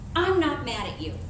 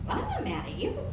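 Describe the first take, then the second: First: It is said in an angry, heated tone. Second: It is said in a calm, sincere tone. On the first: The speaker really is upset. "the tone of voice" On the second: The speaker really is not upset. "Then you know he's not"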